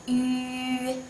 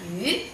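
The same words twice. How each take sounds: First: "Yu" held long, high and level; first tone. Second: "Yu" short and rising; second tone. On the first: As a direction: sustain "Yu" on one steady high pitch. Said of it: "first time". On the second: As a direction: lift "Yu" upward like a question. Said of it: "Second tone". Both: Shown as a demonstration.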